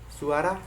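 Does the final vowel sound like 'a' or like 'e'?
a. The final vowel is an open 'a' sound. This is the Indonesian pronunciation.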